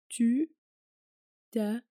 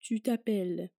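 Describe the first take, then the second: First: It is said slowly. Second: It is said at normal speed.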